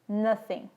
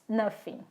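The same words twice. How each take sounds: First: The middle sound is th, tongue against teeth. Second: The middle sound is an f, teeth on lip. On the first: The speaker calls it right. "A pronúncia correta é nothing ... A ponta da minha língua toca a ponta dos meus dentes" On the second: The speaker calls it wrong. "com som de F ... Os meus dentes tocam os meus lábios ... Não é assim"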